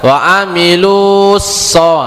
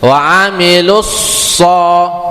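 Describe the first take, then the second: First: The lu is drawn out before so. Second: The lu is short, going straight into so. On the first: The speaker calls it wrong. "lu-nya itu enggak dipanjangin" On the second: The speaker calls it right. "langsung langsung masuk ke so dia"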